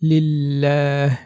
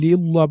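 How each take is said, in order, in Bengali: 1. L বারিক বা পাতলা। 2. L পুর বা মোটা। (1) "বারিক বা পাতলা করে পড়ব। যেমন লিল্লাহ" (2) "পুর করে লিউল্লাহ বলি সেটা ভুল হবে"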